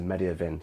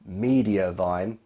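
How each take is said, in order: First: The last syllable rhymes with 'fin'. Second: The last syllable rhymes with 'fine'. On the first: The speaker calls it wrong. "so my last my last uh, YouTube video makes sense" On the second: The speaker calls it right. "I said it right this time"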